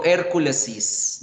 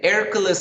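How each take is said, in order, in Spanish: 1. La palabra termina con una sílaba 'is' añadida. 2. La palabra termina sin sílaba añadida. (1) "No digo Hérculesis" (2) "no cambie pronunciación"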